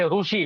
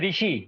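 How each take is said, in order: First: The first syllable sounds like ru. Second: The first syllable sounds like ri.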